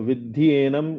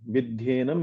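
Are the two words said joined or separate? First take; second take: separate; joined. First: The two words are said separately, unjoined. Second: The two words are fused into one word. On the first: "विद्धि एनम इह वैरिणम भी अगर आप पढ़ेंगे तो चलेगा" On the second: "पुस्तक के अनुसार"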